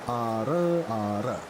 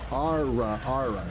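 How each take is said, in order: First: The R is a quick flipped tap. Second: The R is a smooth vowel-like voiced sound. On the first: The speaker calls it wrong. "isn't flipped. It's not" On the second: The speaker calls it right. "No, it's voiced"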